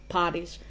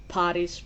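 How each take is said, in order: No difference in how they are said.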